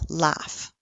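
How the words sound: It is said in an American accent.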